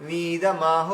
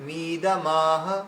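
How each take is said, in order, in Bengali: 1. m-এর পরের স্বরধ্বনিটি দীর্ঘ করে টানা হয়। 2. m-এর পরের স্বরধ্বনিটি দীর্ঘ করে টানা হয়।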